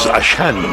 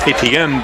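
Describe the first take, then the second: First: It uses the local South Louisiana pronunciation. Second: It uses the national broadcast pronunciation. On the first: This is how locals say the name. "the pronunciation in South Louisiana is" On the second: This is how outsiders say the name. "as they say it on E S P N"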